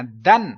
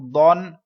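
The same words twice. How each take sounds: First: دن light and thin, low pitch and loud; teacher contrasts light دن; thin sound. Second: دون full and heavy with rounded vowel; teacher contrasts heavy دون; heavy full sound. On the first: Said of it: "اس کو میں نے دن پڑھنا ہے". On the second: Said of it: "دون کیوں پڑھنا ہے؟ کیونکہ مستعلی ہے". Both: Shown as a demonstration.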